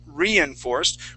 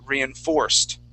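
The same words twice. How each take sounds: First: The stress is on the first syllable. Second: The stress is on the last syllable. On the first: The speaker calls it wrong. "instead of at the beginning saying" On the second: The speaker calls it right. "the a- accent will go on the on the O"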